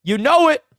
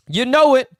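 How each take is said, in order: First: Much higher, louder hype cry; hyped. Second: High, loud hype shout; hyped. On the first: Host celebrates the signing, loud excited cry. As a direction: shout it in triumph. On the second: Host celebrates again, loud excited shout. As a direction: yell it again in triumph. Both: Real, not acted.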